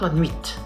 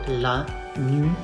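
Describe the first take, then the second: First: The final T is pronounced. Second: The final T is not pronounced. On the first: The speaker calls it wrong. "And not la nuit" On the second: The speaker calls it right. "The final T is silent"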